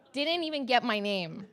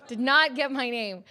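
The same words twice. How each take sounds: First: Said in the usual way. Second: "not" hit separately, louder and higher; outraged stress on "not", every word spaced. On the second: Real, not acted. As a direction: split "Did not" and punch "not".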